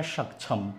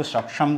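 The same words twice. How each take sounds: First: सक्षम as shak-chham, छ in the middle; the other reading. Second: सक्षम as shak-sham, श in the middle; one of two readings. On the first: Teacher offers learners the alternative, छ pronunciation. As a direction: offer सक्षम softly with a छ sound. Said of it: "पसंद करेंगे या". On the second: Teacher offers learners a choice, k-sh pronunciation. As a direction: offer सक्षम with a clear sh sound. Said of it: "इनका सही उच्चारण क्या होता है". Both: Shown as a demonstration.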